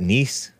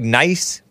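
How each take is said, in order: First: The vowel is said like 'ee'. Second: The vowel is said like 'eye'. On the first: "in French they call it Nice" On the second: "It looks like nice"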